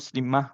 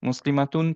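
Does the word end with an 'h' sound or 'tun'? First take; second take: h; tun. First: The word ends with a soft 'h' sound. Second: The word ends with a full 'tun' ending. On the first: The reciter stops at this word. "যদি আমরা হচ্ছে যে স্টপ করি তাহলে মুসলিমাহ পড়বো" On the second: The reciter keeps going without stopping. "মুসলিমাতুন পড়তে পারি"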